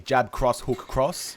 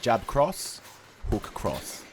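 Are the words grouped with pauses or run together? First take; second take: run together; grouped. First: The words run together without chunk pauses. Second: The words are grouped in chunks with pauses. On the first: The combination is harder to follow. The speaker calls it wrong. "it confuses more people" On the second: The combination is easier to follow. The speaker calls it right. "That's the power of chunking"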